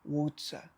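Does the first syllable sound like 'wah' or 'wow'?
wow. The first syllable sounds like 'wow' with crisp t. This is how locals say it there. "eles falam uau, uau, tipo uau, whatsa"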